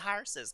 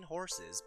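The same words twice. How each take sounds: First: It is said in an Irish accent. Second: It is said in a plain, everyday accent. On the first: "that's how they do it with the hard e" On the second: "like you mean horses"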